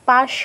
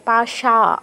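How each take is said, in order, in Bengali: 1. শব্দটি শেষে কোনো স্বরধ্বনি ছাড়া শেষ হয়। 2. শব্দটি দীর্ঘ a স্বরে শেষ হয়। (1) "পাশ নয়" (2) "পাশা আকার আছে"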